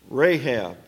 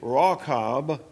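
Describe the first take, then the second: First: The name is said the familiar English way. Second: The name is said the Hebrew way. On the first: "I've been calling her that for so many years" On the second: "in the Hebrew, that's actually Rahab"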